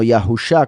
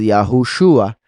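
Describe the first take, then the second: First: No 'oo' vowel comes before the final 'sha'. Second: An 'oo' vowel comes before the final 'shua'. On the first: The speaker calls it wrong. "y no Yahusha, como dicen algunos" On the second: The speaker calls it right. "nos confirma que la pronunciación es Yahushua"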